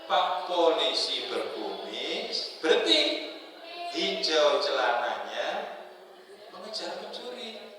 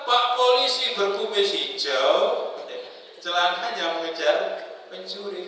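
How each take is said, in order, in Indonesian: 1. Ada jeda setelah berkumis. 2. Ada jeda setelah hijau. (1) "kalau wakaf tidak yang benar" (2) "kalau salah"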